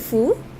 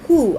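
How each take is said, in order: First: It starts with a clear f sound. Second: It starts with a clear h sound. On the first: "some people pronounce it as F U" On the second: "Some people pronounce it as H U"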